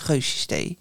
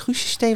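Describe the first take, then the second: First: The first vowel of the name is 'eu'. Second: The first vowel of the name is 'uu'. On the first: The speaker calls it right. "Het is Geusjes Thee" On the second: The speaker calls it wrong. "Ik dacht eerst dat het Guusjes Thee was, maar dat is niet zo"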